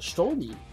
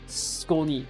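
First: The name begins with an sh sound. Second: The name begins with an sk sound. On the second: "So you pronounce it like S-K?"

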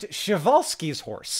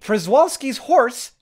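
First: The name is said in a Polish-like way. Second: The name is said in an anglicized way. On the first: The speaker calls it right. "It's pronounced" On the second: The speaker calls it wrong. "is not pronounced like that"

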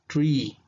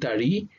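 First: It is said as one syllable. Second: It is said as two syllables. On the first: The speaker calls it right. "you say tree" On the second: The speaker calls it wrong. "Instead of saying tari"

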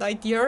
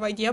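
First: The word ends with an added R sound. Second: The word ends in a plain vowel, no R.

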